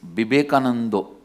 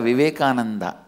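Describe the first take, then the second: First: The final vowel is an 'o' sound. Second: The final vowel is an open 'a' sound.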